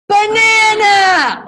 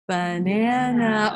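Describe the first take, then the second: First: It is said very loudly, an outside voice. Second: It is said at normal talking volume.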